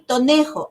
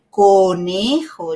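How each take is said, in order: First: The word begins with a t sound. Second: The word begins with an emphasized k sound. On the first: A child mispronounces the word. The speaker calls it wrong. "quiero el tonejo" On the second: The parent models the correct sound. The speaker calls it right. "Acentuar ese sonido que para él todavía le cuesta"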